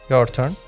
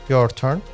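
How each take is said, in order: Both takes have the same delivery.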